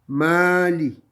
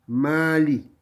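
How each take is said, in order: Both takes have the same delivery.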